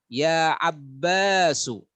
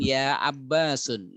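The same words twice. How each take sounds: First: Ya Abbasu, slow, final u with no n; correct reading. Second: Ya Abbasun with nunation, lower; the wrong form ya Abbasun; wrong reading. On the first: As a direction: say ya Abbasu, no nunation. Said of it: "Bukan ya Abbasun". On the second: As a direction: incorrect vocative ya Abbasun. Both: Shown as a demonstration.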